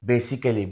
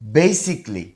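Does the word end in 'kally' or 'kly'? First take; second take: kally; kly. First: The ending is said with a full 'kally' syllable. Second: The ending is reduced to a short 'kly'. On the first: The speaker calls it wrong. "এটাকে আমরা অনেকে বেসিক্যালি বলি। এটা আসলে ভুল উচ্চারণ" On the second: The speaker calls it right. "এর সঠিক উচ্চারণ হবে বেসিকলি"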